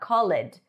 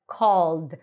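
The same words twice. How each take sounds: First: The ending is said as an extra syllable. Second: The ending is a bare D, one syllable. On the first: The speaker calls it wrong. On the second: The speaker calls it right.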